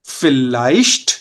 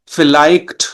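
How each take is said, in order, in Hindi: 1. ch एक नरम, श जैसी हिसिंग आवाज़ है। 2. ch एक कठोर, गले से निकलने वाली kh आवाज़ है। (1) "ये साउंड कर रहा है श" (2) "ये गलत है"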